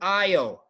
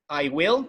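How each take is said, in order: First: The words are joined into one short syllable. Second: Both words are said fully and separately. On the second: "no contraction"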